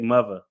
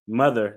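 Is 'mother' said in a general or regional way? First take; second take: regional; general. First: It is said with a regional dialect pronunciation. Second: It is said in a general, unmarked way. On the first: "they say mother" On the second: "people in up here they don't say mother"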